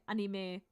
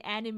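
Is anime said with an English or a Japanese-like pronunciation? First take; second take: Japanese-like; English. First: It is said with a Japanese-like pronunciation. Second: It is said with an English pronunciation. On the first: "I say anime sometimes. Because the German pronunciation is also pretty close to that" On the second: "I do not say anime"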